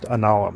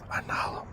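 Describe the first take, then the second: First: It is said dry, without breath. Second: It is said with a breathy exhale.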